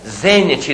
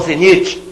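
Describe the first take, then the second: First: The stress is on the first syllable. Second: The stress is on the second syllable. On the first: The speaker calls it right. "proparoxítona" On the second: The speaker calls it wrong. "não zenite"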